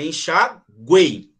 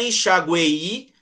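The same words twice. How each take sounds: First: The E in the last syllable is strongest. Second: Another vowel in the last syllable is strongest. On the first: The speaker calls it right. "A mais forte é o E" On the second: The speaker calls it wrong. "Não é enxaguei"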